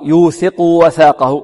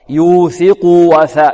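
First: The u vowel before the w is clipped short. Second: The u vowel before the w is fully sounded. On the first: The speaker calls it wrong. "فهنا لا نقول" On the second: The speaker calls it right. "لابد من إشباع ماذا؟ الضمة"

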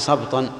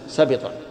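First: The b is followed by no vowel. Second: The b is followed by a short i vowel. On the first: "بسكون الباء" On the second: "ويحتمل أن تكون بالكسر"

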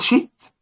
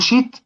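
First: A glottal stop is heard before the t. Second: A long vowel replaces the glottal stop. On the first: The speaker calls it right. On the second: The speaker calls it wrong.

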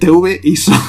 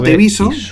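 First: The name is said in two separate parts. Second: The name is said quickly, run together as one. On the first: "es TV ISO" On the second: "Yo le digo TVISO"

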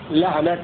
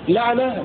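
First: The word ends with a t sound. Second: The word ends with an h sound. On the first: "بالتاء" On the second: "بالهاء"

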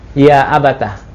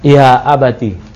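First: The t is followed by an a vowel. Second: The t is followed by an i vowel. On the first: "Ta-nya dipatahkan berarti ya abatah" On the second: "Ta-nya dikasrahkan"

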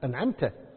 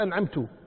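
First: The word ends with a final a vowel. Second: The word ends with a final u vowel. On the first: The one addressed is the one who bestowed favor. The speaker calls it right. "لازم يقول صراط الذين أنعمت أنت يا رب" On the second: The reciter himself is the one who bestowed favor. The speaker calls it wrong. "ما يصير أنعمت"

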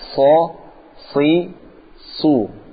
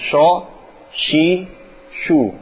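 First: The consonant is a sharp, hissing s. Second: The consonant sounds like a hushing sh. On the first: The speaker calls it right. "Nah, ini benar" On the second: The speaker calls it wrong. "Kalau antum bacanya"

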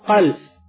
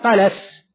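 First: The L has no vowel after it. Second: The L is followed by a short 'a' vowel. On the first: The act of it coming up. "مضبوطة بالسكون" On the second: The matter that comes up from the stomach. "مضبوطة بالفتح"

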